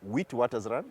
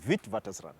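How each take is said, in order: First: The name is sounded out as it is spelled. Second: The name is said the way locals say it. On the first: The speaker calls it wrong. "it reads Witwatersrand" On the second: The speaker calls it right. "but it's pronounced Witwatersrand"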